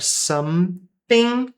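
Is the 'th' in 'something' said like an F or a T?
T. The 'th' is said like a T sound. "só com som de T mesmo, se você quiser, é um sotaque"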